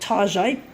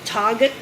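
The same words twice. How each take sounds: First: The name is pronounced in a posh, fancy way. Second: The name is pronounced in the ordinary way. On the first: It pretends the store is upscale and boutique. "pretending it's posh" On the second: It is the store's real, everyday name. "as it's actually referred to"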